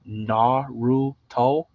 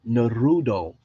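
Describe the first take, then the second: First: The middle consonant is a clear T sound. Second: The middle consonant sounds like a D. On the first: The speaker calls it right. "If you could say Naruto, Naruto, then we could shake your hand" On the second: The speaker calls it wrong. "There's no D right there"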